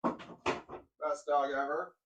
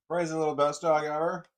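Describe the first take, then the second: First: Drawn-out, slow praise for a dog; slow doting praise. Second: Louder, bouncy praise for a dog; louder excited praise. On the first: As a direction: stretch every word out lovingly. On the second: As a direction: burst out with it, louder. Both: Real, not acted.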